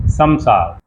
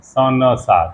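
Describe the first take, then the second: First: संसार with a smooth m-like nasal, said sam-saar; correct pronunciation. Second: संसार split as स न सार, nasal as a separate na; wrong pronunciation. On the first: Teacher giving students the correct form after the wrong one. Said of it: "नहीं". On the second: Teacher mimicking the common mispronunciation for students. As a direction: say स न सार as three clumsy parts, na standing alone. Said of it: "न सार कह देते हैं". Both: Shown as a demonstration.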